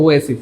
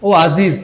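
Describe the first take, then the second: First: The middle consonant is an S sound. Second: The middle consonant is a Z sound. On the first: The speaker calls it right. "শব্দটা হবে ওএসিস" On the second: The speaker calls it wrong. "এর শব্দটা ও আজিজ হবে না"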